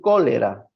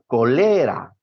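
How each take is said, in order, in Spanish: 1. El acento está en la primera sílaba. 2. El acento está en la segunda sílaba. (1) "aquí no dice cólera" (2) "si dice colera, es una palabra grave"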